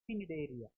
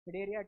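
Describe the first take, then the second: First: The word begins with a hard C sound. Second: The word begins with no hard C sound. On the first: The speaker calls it wrong. "we shouldn't pronounce it as Cnidaria" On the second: The speaker calls it right. "here C silent"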